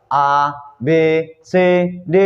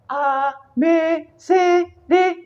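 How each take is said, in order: First: Said in the usual way. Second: "A, B, C, D" much higher in head voice. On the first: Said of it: "itu suara satu". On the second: Shown as a demonstration. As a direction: lift the letters into head voice. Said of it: "itu adalah suara, suara yang kedua".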